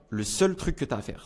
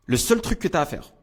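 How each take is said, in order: First: Said in the usual way. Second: « seul » appuyé, voix plus haute et plus forte; emphatic lead-in. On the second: Shown as a demonstration. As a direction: insiste sur « seul » pour capter l'attention. (mettre l'accent sur « seul », plus haut et plus fort)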